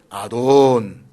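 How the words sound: It is said in a soft, gentle tone.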